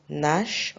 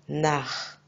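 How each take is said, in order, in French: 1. Le ch se prononce comme un 'sh' doux. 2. Le ch se prononce comme un 'h' guttural. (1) "on ne va pas dire nash" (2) "on va dire nar. Ça se dit ha"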